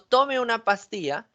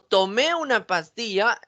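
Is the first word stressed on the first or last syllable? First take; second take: first; last. First: The first word is stressed on its first syllable. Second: The first word is stressed on its last syllable.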